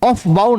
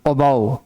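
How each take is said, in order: First: An f sound is pronounced in the middle. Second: No f sound is heard in the middle. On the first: The speaker calls it wrong. "ऑफ बाउ नहीं पढ़ना" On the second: The speaker calls it right. "एफ को साइलेंट कर दो"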